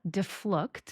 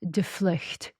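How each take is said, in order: First: The name has an American English pronunciation. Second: The name has a Dutch pronunciation. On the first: This is how it is said in America. The speaker calls it wrong. "my last name is pronounced here in America" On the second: This is how it is said in Holland. The speaker calls it right. "So properly"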